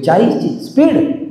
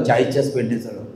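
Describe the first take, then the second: First: चाळीसची said higher and slow; stress on चाळीसची. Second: Said in the usual way. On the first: Shown as a demonstration. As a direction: dwell on चाळीसची speed. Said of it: "त्याला speed म्हणतात". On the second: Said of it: "त्याला म्हटलं".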